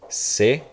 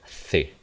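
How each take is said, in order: First: The letter name begins with an s sound. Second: The letter name begins with a th sound.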